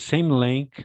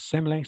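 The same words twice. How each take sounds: First: The phrase is said slowly and clearly. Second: The phrase is said quickly and runs together. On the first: The listener understands it perfectly. The speaker calls it right. "I understand quite perfectly" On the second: The listener could not understand it. The speaker calls it wrong. "you said like this, ... you said fast, fast"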